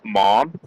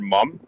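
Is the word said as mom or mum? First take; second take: mom; mum. First: The word is said as mom, rhyming with Tom. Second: The word is said as mum, rhyming with gum. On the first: This is the form taught in school spelling. "not mom" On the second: This is what the speaker calls their mother. "I grew up calling my mother mum"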